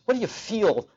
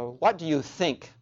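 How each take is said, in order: First: "feel" stressed in contrast. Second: Slow question, leaning on "think"; stress on think. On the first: Preacher showing what is not being asked, stress on feel. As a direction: question leaning hard on "feel". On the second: Preacher quoting a question to the congregation, stress on think. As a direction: think drawn out and weighted. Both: Shown as a demonstration. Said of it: "emphasis on the word think".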